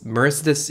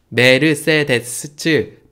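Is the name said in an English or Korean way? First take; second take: English; Korean. First: It is said with English pronunciation. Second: It is said with Korean pronunciation. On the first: "영어로는 Mer, Mercedes, Mercedes 이 정도로 이야기하고요" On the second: "한국말로 이렇게 하고"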